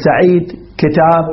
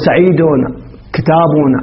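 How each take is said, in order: First: Each word ends on a bare final consonant. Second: Each word ends with an added -un ending. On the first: The speaker pauses on each word. "بالوقف نقول" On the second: The words are listed in continuous speech. "إذا سردناها سردا ترفع"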